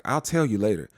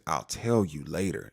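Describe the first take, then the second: First: Said in the usual way. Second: Slow, lower, firm mom warning; low deliberate I'll tell you later; stern mama. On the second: Retold or imitated. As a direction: shut it down like a mother. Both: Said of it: "She gave him that mama look".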